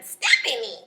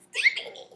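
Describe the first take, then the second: First: Mock girlfriend's name; lightly mocking name call; mocking Stephanie's sound. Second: Squeaky, very high mock girlfriend voice; tiny high-pitched imitation; Stephanie. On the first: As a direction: say the name as a put-on imitation. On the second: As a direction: squeal the name in mockery. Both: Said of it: "That's how she sounded".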